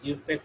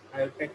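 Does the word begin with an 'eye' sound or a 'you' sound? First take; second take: you; eye. First: The word begins with a 'you' sound. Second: The word begins with an 'eye' sound. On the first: The speaker calls it right. "এটাকে ইউপ্যাক উচ্চারণ করা হয়" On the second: The speaker calls it wrong. "অনেকে আইউপ্যাক উচ্চারণ করেন, আইউপ্যাক হবে না"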